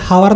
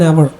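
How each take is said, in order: First: The word starts with an audible h sound. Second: The word starts with a vowel, h silent. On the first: The speaker calls it wrong. "ഹവർ എന്നൊക്കെ ചിലർ പറയുമായിരിക്കും" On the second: The speaker calls it right. "യഥാർത്ഥത്തിൽ an അവർ ആയാണ് വരുന്നത്"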